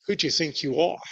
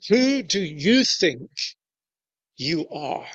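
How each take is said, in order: First: Mild, rising English-style query; a restrained English reading of the question; polite English tone. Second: Giving them credit. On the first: Reading the leaders' challenge, mild English tone. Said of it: "we read that with a kind of English tone of voice". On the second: Leaders challenging Jesus, with weighty intent. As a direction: let the question land as a serious charge. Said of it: "but let's give them the credit". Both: Shown as a demonstration.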